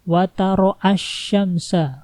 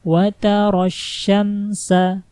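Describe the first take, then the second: First: An extra 'a' vowel comes before 'syamsa'. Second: It goes directly into the doubled 'sy' sound. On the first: The speaker calls it wrong. "bukan wataroasyamsa, bukan kayak gitu" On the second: The speaker calls it right. "langsung masuk ke tasydid"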